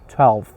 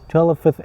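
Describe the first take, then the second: First: The final consonants are said together smoothly. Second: The final consonants are split apart. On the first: The speaker calls it right. "You should say twelfth altogether" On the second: The speaker calls it wrong. "twelfth is wrong"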